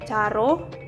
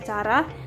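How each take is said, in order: First: The word ends with an 'o' vowel. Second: The word ends with an 'a' vowel. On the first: The speaker calls it wrong. "Misalnya pada kata caro" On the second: The speaker calls it right. "yang seharusnya cara"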